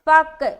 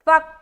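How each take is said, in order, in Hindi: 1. अंतिम k एक उछलती गूंज के साथ छोड़ा जाता है। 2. अंतिम k बिना किसी गूंज के अचानक रुक जाता है। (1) "गलत है" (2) "फक सही है"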